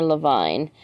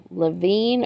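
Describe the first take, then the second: First: Levine said luh-VINE, like grapevine. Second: Levine said luh-VEEN, long ee. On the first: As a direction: try Levine rhyming with fine. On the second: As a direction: try Levine rhyming with seen. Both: Shown as a demonstration. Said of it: "she was saying it wrong".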